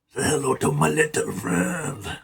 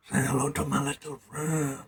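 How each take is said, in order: First: Lightly voiced Tony Montana gangster line; a light mock of the Scarface gangster, spoken a little softer; Scarface impression. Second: Scarface gangster line, much softer and mumbled; quiet Scarface impression. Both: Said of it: "This is like I'm in Scarface".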